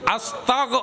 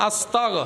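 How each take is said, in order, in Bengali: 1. শব্দটি g ধ্বনি দিয়ে শেষ হয়। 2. শব্দটি g ধ্বনি দিয়ে শেষ হয়।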